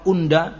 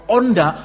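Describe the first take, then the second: First: The first vowel is a plain 'u' sound. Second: The first vowel is an 'o' sound. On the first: It simply means I. "kan kalau unda saya" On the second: It means I, with strong emphasis. "tapi kalau onda itu saya banget"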